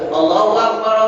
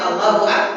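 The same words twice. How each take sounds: First: The vowel in Akbar is drawn out long. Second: The vowel in Akbar is kept short. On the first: The speaker calls it wrong. "Tak boleh dipanjang ke" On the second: The speaker calls it right. "kalau azan makanya Allahu Akbar"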